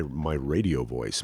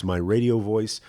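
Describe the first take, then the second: First: Low, slow announcer voice; deep radio announcer delivery. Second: Said in the usual way. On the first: Shown as a demonstration. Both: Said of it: "do some kind of my, my radio voice".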